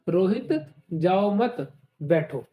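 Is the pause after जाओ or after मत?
after मत. The pause comes right after मत.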